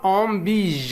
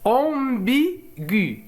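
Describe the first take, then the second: First: The word ends with a hard g sound. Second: The word ends with an audible u vowel. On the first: "إذا حذفنا U سوف تصبح الكلمة" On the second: "إذا وضعنا لو تغيما هنا إذن سوف نسمع صوت U"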